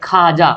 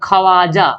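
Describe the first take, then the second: First: No w sound is heard after the kh. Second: A w sound is heard after the kh. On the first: The speaker calls it right. "लेकिन पढ़ते क्या खाजा" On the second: The speaker calls it wrong. "क्या लिखा हुआ खवाजा"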